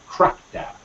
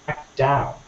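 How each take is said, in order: First: The stress falls on the first part. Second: The stress falls on the second part. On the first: It is used as a noun. "when you use the noun form, you're going to stress the information part more" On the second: It is used as a verb. "When you use the phrasal verb, uh, you're going to stress the particle more"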